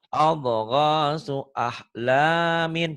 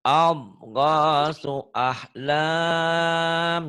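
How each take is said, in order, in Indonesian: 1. Akhiran terakhir dibaca penuh. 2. Akhiran dihilangkan dan vokal terakhir dipanjangkan. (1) "kalau tidak dihentikan" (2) "Jadi panjang ini. Ini jadi mad dari sukun kalau dihentikan"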